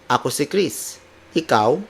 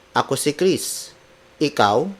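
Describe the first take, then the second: First: The words flow together with natural intonation. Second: The same.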